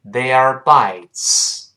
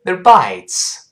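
First: "They are bites" very slow, full vowels; slow reading. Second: "They're bites" with a weak, short "they're"; quick reduced reading. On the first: Teacher leads learners slowly first, slow reading. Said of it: "跟老师先慢慢读一下". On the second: Teacher shows the sound change at speed, quick reading. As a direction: rush "they're" lightly into stressed "bites". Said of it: "快读， 注意发音变化". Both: Shown as a demonstration.

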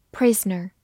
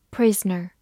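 No difference in how they are said.

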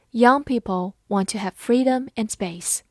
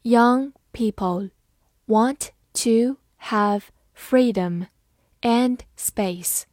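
First: Said in the usual way. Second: Slow, word-by-word reading; deliberate, separated words for learners; slow model reading. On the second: Shown as a demonstration. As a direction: read it out slowly with gaps between words. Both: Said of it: "慢读一遍".

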